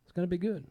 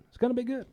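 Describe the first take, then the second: First: Said in the usual way. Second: Excited repeat. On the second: Real, not acted. Repeats hype line higher.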